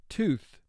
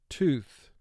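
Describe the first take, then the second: Both takes have the same delivery.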